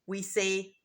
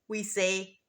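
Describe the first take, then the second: The two takes are said the same way.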